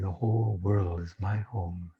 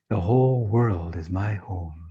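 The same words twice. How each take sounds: First: It is said more quietly. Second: It is said at normal loudness.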